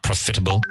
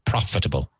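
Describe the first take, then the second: First: The stress is on a later syllable. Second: The stress is on the first syllable. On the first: The speaker calls it wrong. "not profitable" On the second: The speaker calls it right. "the emphasis is on the first syllable"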